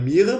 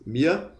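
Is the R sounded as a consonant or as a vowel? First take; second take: consonant; vowel. First: The R is sounded as a consonant. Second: The R is sounded like a vowel. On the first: The speaker calls it wrong. "Não é Mira" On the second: The speaker calls it right. "o R tem um som de A"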